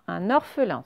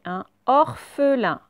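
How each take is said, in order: First: Said in the usual way. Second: Drawn out and a little louder; slow dictation. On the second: Shown as a demonstration. Teacher dictating to pupils, slowly.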